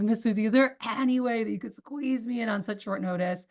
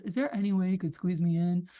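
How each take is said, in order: First: Higher, pressing request to Miss Susie; urgent ask. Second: Said in the usual way. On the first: Shown as a demonstration. Rep asking Miss Susie for a last-minute slot, urgent. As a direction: make her feel the urgency. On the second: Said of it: "that doesn't sound urgent".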